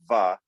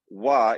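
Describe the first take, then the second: First: It begins with a v sound. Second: It begins with a w sound. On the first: "V is unilabial, one lip" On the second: "wa is two lips"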